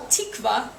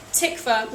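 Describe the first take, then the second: First: "tikva" with a tense "ee" in the first syllable; misheard name. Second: Said in the usual way. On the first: Shown as a demonstration. Storyteller showing how hosts misheard the name, "tikva" said as "TEEK-va". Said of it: "persistently mishearing my name".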